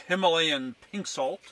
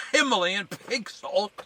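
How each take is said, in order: First: Said in the usual way. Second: Himalayan said higher and louder, with a big falling sweep; proud announcer delivery. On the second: Shown as a demonstration. Showing viewers the right way, higher and louder. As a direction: announce "Himalayan pink salt" like a grand product name. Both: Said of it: "You gotta say it like this".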